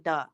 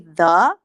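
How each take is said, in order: First: The word begins with a hard d sound. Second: The word begins with a soft th sound. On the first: "I say duh, which is weird" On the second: "I don't say the"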